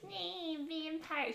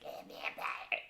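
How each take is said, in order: First: It is said in a normal voice. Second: It is said in Sherry's demon voice.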